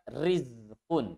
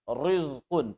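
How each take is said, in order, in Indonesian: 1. Bunyi r dibaca ringan dan tipis. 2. Bunyi r dibaca berat dan tebal. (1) "dibaca tarqiq, dibaca tipis" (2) "Jangan baca"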